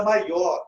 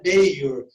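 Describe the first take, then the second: First: Said in the usual way. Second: "mayor" as MEI-or, stress up front; English "mayor" with an "ei" in the first syllable; English pronunciation. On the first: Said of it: "em português é maior". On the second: Shown as a demonstration. Teacher contrasting English with Portuguese, "mayor" as MEI-or. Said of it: "mas no inglês é mayor".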